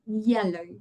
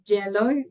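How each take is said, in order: First: The word begins with a soft y sound. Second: The word begins with a j sound. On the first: The speaker calls it right. "when it's actually a soft sound" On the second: The speaker calls it wrong. "like in j, j, j as in a J"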